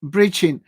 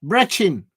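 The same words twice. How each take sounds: First: "breaching" said like the word breaching, long EE. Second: "Brechin" with a short E like breck, ch as in chin. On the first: Repeating the viewer's spelling, "breaching" with a long EE. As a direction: viewer says it sounds like "breaching". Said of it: "Sounds like". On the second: Corrected by a viewer, "Brechin" with a short E. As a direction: read out the locals' way, "Brechin" with a short E. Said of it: "That's how you say it there". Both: Shown as a demonstration.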